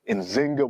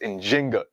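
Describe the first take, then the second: First: The name is said with a z sound. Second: The name is said with a j sound. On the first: The speaker calls it wrong. "spelled as Nzinga with a Z" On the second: The speaker calls it right. "the more correct way to pronounce her name ... is with the J"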